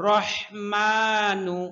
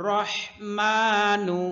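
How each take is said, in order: No difference in how they are said.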